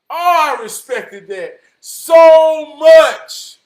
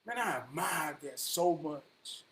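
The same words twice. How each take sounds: First: Very loud, high, drawn-out praise; booming, heartfelt outburst; impassioned shout. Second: Said in the usual way. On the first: Real, not acted. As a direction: belt out your respect slowly.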